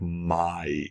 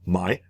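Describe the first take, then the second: First: The word is drawn out with an ah sound. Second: The word is said very quickly. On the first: "a little bit slower like my, which would have an ah in between" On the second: "which is really quick"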